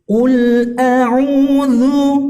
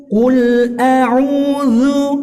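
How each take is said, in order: First: The consonant is articulated with moderate clarity. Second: The same.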